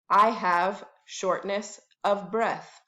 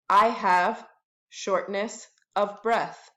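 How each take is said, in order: Both takes have the same delivery.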